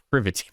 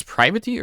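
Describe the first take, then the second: First: Privity with a short I, "PRIV-ity"; Privity pronounced PRIH-vih-tee; short I pronunciation. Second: Privity with a long I, "PRY-vity"; Privity pronounced PRY-vih-tee; long I pronunciation. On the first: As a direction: say the first syllable of Privity as in "privilege". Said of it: "proper way to pronounce her". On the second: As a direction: say the first syllable of Privity like "pry". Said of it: "I don't know if it's". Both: Shown as a demonstration.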